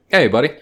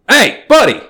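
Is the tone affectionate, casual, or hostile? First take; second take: casual; hostile. First: It sounds like a relaxed, friendly greeting. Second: It sounds aggressive and threatening. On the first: Like saying dude, what's going on. "Different inflections here" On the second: Like saying I'm going to fight you. "That's kind of like motherfucker"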